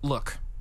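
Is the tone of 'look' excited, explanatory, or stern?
explanatory. It sounds calm and explanatory, leading into instructions. Here is how something is done. "when you say look before you try to explain something to somebody"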